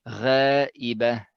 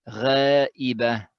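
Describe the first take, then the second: Both takes have the same delivery.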